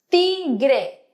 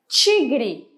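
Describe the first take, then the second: First: It is pronounced with Spanish sounds. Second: It is pronounced with Portuguese sounds. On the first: "en español" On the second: "en portugués"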